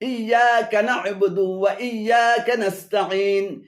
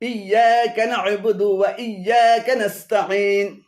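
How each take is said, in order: Both takes have the same delivery.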